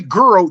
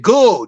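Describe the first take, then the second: First: The word is said with a clear R sound. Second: The word is said without R, like gull. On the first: "they didn't say girl, G I R L" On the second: "They said girl, G U L L"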